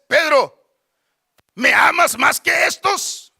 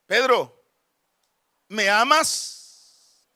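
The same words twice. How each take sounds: First: Firm, slow, insistent question; Jesus. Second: Jesus. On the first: Lord asking a third time, loud insistent question. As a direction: call the name, then press hard with the question. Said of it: "Y le dice la tercera vez". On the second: Risen Lord first asking his disciple, measured question. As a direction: ask it slowly and gently, leaving space. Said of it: "Y le dice". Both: Acted.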